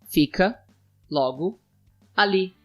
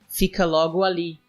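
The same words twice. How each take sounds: First: It is said more slowly. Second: It is said at a normal pace.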